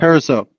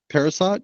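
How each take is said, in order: First: The name ends without any T sound. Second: The name ends with an audible T sound. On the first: The speaker calls it right. "The T is silent" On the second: The speaker calls it wrong. "Am I saying that right?"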